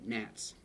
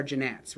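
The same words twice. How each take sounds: First: "Gnats" said as "nats", softly; silent G. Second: "gnats" said as "juh-nats"; sounded G. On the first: Teacher correcting the joke word, "Gnats" with silent G. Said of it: "The G is silent". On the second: Teacher joking about the mnemonic, "gnats" as juh-nats. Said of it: "say it like that". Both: Shown as a demonstration.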